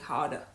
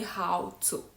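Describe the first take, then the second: First: The T in 'to' becomes a soft D. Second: The T in 'to' is pronounced fully. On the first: "He's more likely to say how to" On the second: "he won't say how to"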